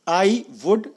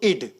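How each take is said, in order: First: Both words are said in full. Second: The words are merged into one short syllable.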